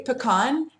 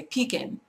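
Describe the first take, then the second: First: "pecan" as puh-KAHN, stress on the end; normal pecan. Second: "pecan" as PEE-kin, stress up front; silly pecan. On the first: Speaker giving own word, pecan as puh-kahn. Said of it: "I say pecan". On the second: Speaker showing one only for laughing at, pee-kin. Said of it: "If you want to be really silly". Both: Shown as a demonstration.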